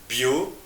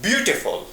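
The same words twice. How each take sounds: First: "Beau-te-ful" in three separate beats; "Beau", pause, "te", pause, "ful"; syllable by syllable. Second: Said in the usual way. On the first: Shown as a demonstration. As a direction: break "Beau-te-ful" apart, pausing after each syllable. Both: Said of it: "It is a three syllables word".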